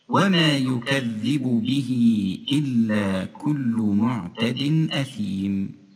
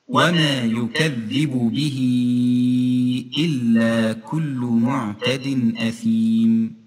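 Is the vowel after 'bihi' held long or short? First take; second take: short; long. First: The vowel after 'bihi' is held briefly. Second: The vowel after 'bihi' is stretched out longer. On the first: "هكذا حركتين" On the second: "أما بالأربع حركات"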